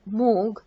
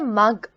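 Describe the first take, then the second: First: The vowel is a long 'oo' sound. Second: The vowel is a short 'uh' sound. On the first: The speaker calls it wrong. "not moog" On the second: The speaker calls it right. "I say mug"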